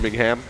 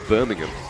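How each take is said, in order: First: The last syllable is fully said as ham. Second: The last syllable is reduced and unstressed. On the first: This is how the Alabama city's name is said. The speaker calls it wrong. "Only in Alabama" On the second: This is how the British city's name is said. The speaker calls it right. "say Birmingham properly now"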